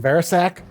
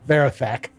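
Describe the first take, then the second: First: The name is said with a clear s sound. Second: The name is said with a lisped th sound. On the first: This is the name's true form. "It's actually Verisac" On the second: This is how the character says his own name. "he has a lisp, so it's Verathak"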